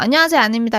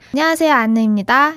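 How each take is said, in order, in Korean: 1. 목소리가 평범하고 보통 음높이예요. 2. 목소리가 높아지면서 귀여운 톤이에요. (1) "이렇게 하면 되는데" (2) "약간 이렇게 높아져가지고"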